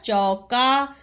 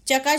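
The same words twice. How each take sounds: First: चौका with a long औ; चौका sounded out as "chau-kaa"; corrected word. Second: चका with a short "a" after च; quick first vowel in चका; misspelt word. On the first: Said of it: "क्या होता है". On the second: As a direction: say चका as "cha-ka", no औ. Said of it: "शब्द नहीं होता". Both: Shown as a demonstration.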